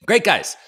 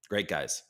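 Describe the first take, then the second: First: High, loud burst of praise; hyped-up. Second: Low, soft aside; subdued. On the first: Praising the team to stream viewers, hyped-up. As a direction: punch it up like a host pumping himself up. Repeats the praise with sudden energy. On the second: Signing off a shout-out to the team, subdued. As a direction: say it quietly, pitched well down. Says it low, then repeats it loudly. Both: Real, not acted.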